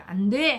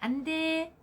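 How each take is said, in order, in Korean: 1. 엄하게, 얼굴을 찌푸리며 말합니다. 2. 가볍게, 웃으면서 말합니다. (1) "인상은 어떻게 안 돼! 해야 되죠" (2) "웃으면서 안 돼! 그렇게 하는 거 아니야"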